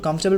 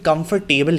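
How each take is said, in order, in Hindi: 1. यह शब्द छोटे रूप में बोला जाता है। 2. हर अक्षर वैसे ही बोला जाता है जैसा लिखा है। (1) "नेटिव्स होते हैं वो उसको कंफर्टेबल प्रोनाउंस करते हैं" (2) "लिखा हुआ तो ऑनेस्टली कंफर्टेबल ही होता है"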